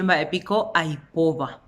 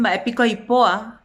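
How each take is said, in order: First: "baepico aipoba" con la b final pronunciada; consonante conservada. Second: "baepico aipoa" sin b antes de la a final; cómete la última b: "baepico aipoa"; consonante omitida. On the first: Shown as a demonstration. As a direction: marca la b de "aipoba". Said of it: "en vez de decir baepico aipoba". ("baepico aipoba" completo, sin omitir la b) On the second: Retold or imitated. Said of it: "Te dicen baepico aipoa". ("aipoa" con o y a seguidas)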